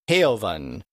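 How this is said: The vowel is stretched into a diphthong.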